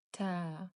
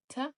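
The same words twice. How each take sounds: First: Ta with the a drawn out; long vowel taa with alif. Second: Ta with a short clipped a; short fatha on ta. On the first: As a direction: hold the a in ta long. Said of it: "Long sound". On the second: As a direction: say ta quickly, short vowel. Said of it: "Short sound". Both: Shown as a demonstration.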